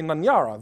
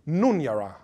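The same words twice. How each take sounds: First: NANYARA with an "a" in the first syllable; local misreading. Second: NUNYARA with "oo" in the first syllable; corrected pronunciation. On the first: Lecturer showing how most people misread the name, misreading. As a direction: say Nanyara, opening on NAN. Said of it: "Bangala people would say Nanyara". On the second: Lecturer correcting how people read the name, corrected pronunciation. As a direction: say Nunyara, opening on NOON. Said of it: "But in fact, it's Nunyara". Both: Shown as a demonstration.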